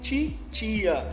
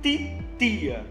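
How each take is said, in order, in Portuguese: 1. Pronuncia-se com sotaque do Sudeste brasileiro. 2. Pronuncia-se com sotaque do Nordeste brasileiro. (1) "daquela região sudeste, do sul" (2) "aqui no Nordeste"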